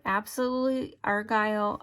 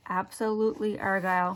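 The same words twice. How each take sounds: First: Said in the usual way. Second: Absolutely Argyle said more slowly, each syllable distinct; slower, careful saying. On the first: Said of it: "Did I say that right?". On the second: Real, not acted. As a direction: take care over every syllable of "Absolutely Argyle". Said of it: "Say it a little slower".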